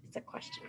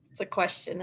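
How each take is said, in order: First: It's a question said in a soft unvoiced whisper. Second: Said in the usual way. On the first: Shown as a demonstration. Teacher whispering It's a question to first graders. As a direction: breathe It's a question as a secret. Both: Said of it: "Should I say it".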